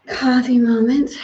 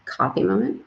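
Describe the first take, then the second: First: Coffee said higher and louder, rising; stress on Coffee. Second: Said in the usual way. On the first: Shown as a demonstration. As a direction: lift and brighten Coffee.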